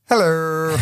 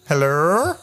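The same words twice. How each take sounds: First: The voice falls flat at the end. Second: The voice rises at the end, like a question.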